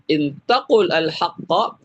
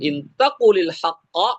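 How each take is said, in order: First: The words are said separately without a linking vowel. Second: The words are joined with a linking i vowel.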